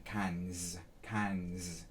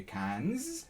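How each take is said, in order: First: "cans" with the pitch dropping low on the S; low, falling "cans". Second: "cans" with the pitch rising high at the end. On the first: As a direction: let "cans" fall low into the throat. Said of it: "See how when I say the S". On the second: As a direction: lift "cans" upward like a question. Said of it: "You could also do cans". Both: Shown as a demonstration.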